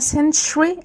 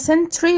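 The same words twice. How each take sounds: First: The middle consonant is a ch sound. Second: The middle consonant is a plain t sound. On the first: The speaker calls it right. "في تي يو اتنطقت تشا" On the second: The speaker calls it wrong. "ناس كتير بتقولها century وهي غلط"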